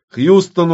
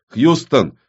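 First: Гораздо выше и громче, настойчиво зовёт; срывается на крик, повторяя имя; настойчивый крик. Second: Вызов в рацию. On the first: (второй вызов, гораздо выше и громче) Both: Acted. Повторный вызов по рации.

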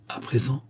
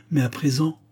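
First: Lightly hoarse, subdued question. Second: Said in the usual way. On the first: A narrator's reading. Lover dreading what she will say, lightly hoarse. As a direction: echo it back with a hint of hoarseness. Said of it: "dit-il d'une voix rauque".

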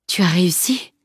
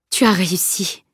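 First: Lightly hoarse, tired question; exhausted fighter asking with a touch of hoarseness. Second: Moved, admiring exclamation; understated joyful amazement; mild exclamation. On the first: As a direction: ask it with a slightly husky, spent voice. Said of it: "demanda-t-il d'une voix rauque". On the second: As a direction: exclaim it as a relieved statement. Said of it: "s'exclama-t-il". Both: A narrator's reading.

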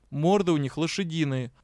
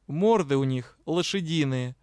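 First: Said in the usual way. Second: Complaining. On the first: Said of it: "пояснил". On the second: A narrator's reading. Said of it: "посетовал офицер Найтес".

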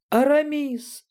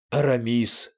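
First: Very high delighted shriek; high, happy girlish squeal; joyful squeal. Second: Understated amazement at normal pitch; amazed. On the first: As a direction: squeal the name with joy. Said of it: "радостно взвизгнула Галя". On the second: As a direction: say the name in mild astonishment. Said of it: "с изумлением произнёс Атос". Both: A narrator's reading.

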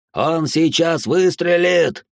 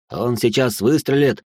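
First: Higher, slow panicked repeat; the fear spikes on выстрелит; rising panic. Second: Said in the usual way. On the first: A narrator's reading. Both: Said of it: "repeated in panic".

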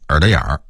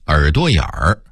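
First: "耳朵眼儿"变调，"朵"重读下降; 北京腔说"耳朵眼儿"; Beijing pronunciation. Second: Said in the usual way. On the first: Shown as a demonstration. (北京话变调说"耳朵眼儿") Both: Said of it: "北京人会说成".

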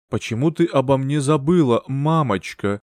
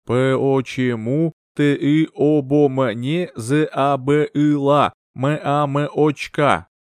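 First: Said in the usual way. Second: Very slow, eerie, drawn-out spirit voice; ghostly child voice. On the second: Acted. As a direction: let the words float in from beyond. Spirit message during the séance.

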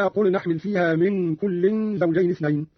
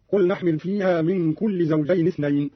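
First: Said in the usual way. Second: "كل" as kulli, single kasra; no tanween. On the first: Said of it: "قرأ قالون بحذف التنوين". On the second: Shown as a demonstration. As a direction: say "كل زوجين" as kulli zawjayn, no n. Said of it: "بحذف التنوين، أي بكسرة واحدة هكذا". ("كل" بكسرة واحدة دون تنوين)

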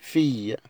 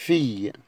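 No difference in how they are said.

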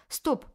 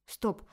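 First: Higher, louder second stop; louder shout. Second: Sharp firm call to stop; shout. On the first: Feminist voice halting Tanya, rising yell. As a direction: yell it harder, escalating. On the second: Feminist voice halting Tanya, sharp shout. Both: Acted. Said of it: "кричала феминистка".

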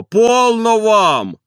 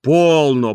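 First: High, loud, very slow plea; stop it. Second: Louder call to stop; calming call. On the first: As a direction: stretch полно, high and loud. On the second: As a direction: hush them, louder. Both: A narrator's reading. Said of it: "унимал дворник".

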